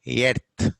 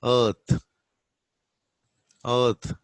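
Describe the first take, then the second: First: Earth as "yert", hard t; "earth" with a front vowel, no th; Telugu-English pronunciation. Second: Earth with a long "er" schwa, no r; r-less central vowel in "earth"; correct pronunciation. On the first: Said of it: "I do pronounce as". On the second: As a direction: say "earth" as "uhth". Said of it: "the correct pronunciation is". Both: Shown as a demonstration.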